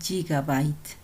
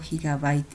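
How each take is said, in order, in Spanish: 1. La palabra se pronuncia a la manera inglesa. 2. La palabra se pronuncia a la manera española. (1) "Algunas personas les dicen gigabyte" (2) "Yo les digo gigabyte en español, tal vez está mal pronunciado"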